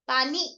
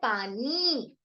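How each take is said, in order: First: The final i vowel is short. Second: The final i vowel is long. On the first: The speaker calls it wrong. "ऐसे तो नहीं बोलते हम पानी" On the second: The speaker calls it right. "हम बोलते हैं पानी। यस, तो बड़ी ई की मात्रा"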